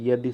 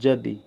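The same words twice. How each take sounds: First: The word begins with a 'y' sound. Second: The word begins with a 'j' sound. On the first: The speaker calls it right. "यदि सही है" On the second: The speaker calls it wrong. "यदि गलत है"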